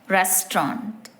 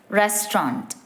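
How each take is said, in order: No difference in how they are said.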